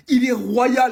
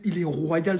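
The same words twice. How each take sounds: First: High, very loud exclamation; admiring shout. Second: Said in the usual way. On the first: Acted. Fan hailing the royal kid, admiring shout. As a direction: belt out the praise at full voice.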